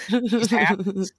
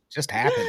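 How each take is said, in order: First: Said in the usual way. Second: Much higher, squeaky, thin. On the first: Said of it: "repeated line". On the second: Shown as a demonstration. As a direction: squeak it up high. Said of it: "repeated line, high".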